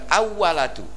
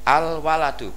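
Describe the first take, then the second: First: The l merges into the following w sound. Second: The l is pronounced clearly before the w. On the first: The speaker calls it wrong. "bukan awwaladu" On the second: The speaker calls it right. "lamnya tetap nampak"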